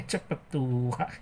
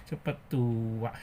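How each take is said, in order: Both takes have the same delivery.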